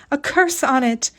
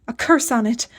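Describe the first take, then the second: First: Repeated curse, a touch higher and more frantic; the repeat climbs into hysteria, CURSE hit hard; hysterical curse. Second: Mildly hysterical, first outburst, CURSE hit. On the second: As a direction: start of a near-hysterical curse. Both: A narrator's reading. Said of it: "she kept repeating hysterically".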